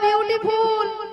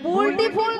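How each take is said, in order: First: It is said as beautiful. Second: It is said as bulti ful. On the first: The speaker calls it right. "বলো বিউটিফুল" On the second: The speaker calls it wrong. "বুলটি ফুল নয়"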